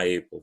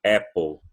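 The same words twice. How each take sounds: First: "apple" as EY-po, gliding first vowel; wrong pronunciation. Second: "apple" said AP-ol, open A; firm "apple" without a glide; correct pronunciation. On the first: Teacher on the fruit you don't eat, EY-po "apple". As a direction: say "apple" with the alphabet's "ay". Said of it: "você não come uma apple". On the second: Teacher naming the fruit you eat, open-vowel "apple". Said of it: "você come uma". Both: Shown as a demonstration.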